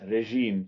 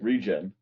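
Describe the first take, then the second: First: The word is said in a French accent. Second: The word is said in a plain English accent.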